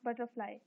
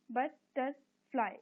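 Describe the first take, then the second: First: Said in the usual way. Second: "butterfly" slowly, in three separate beats; pauses between बट, टर and fly in "butterfly"; split into syllables. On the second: Shown as a demonstration. Teacher dividing words for the class, "butterfly" syllable by syllable. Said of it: "इनको syllables में divide करना है".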